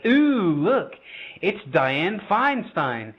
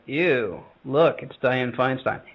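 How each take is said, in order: First: It sounds starstruck and admiring. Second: It sounds repulsed and disgusted.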